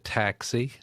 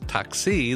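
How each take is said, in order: First: The stress is on the first syllable. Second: The stress is on the second syllable. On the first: The speaker calls it wrong. "she was putting the emphasis on the first syllable" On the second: The speaker calls it right. "in Greek, it's taxi, the emphasis on the second"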